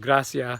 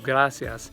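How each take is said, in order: First: The final s sound is dropped. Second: The final s sound is kept. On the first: The speaker calls it wrong. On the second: The speaker calls it right.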